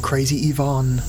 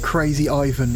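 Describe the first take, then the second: First: Ivan is pronounced the way the game says it. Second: Ivan is pronounced the everyday English way.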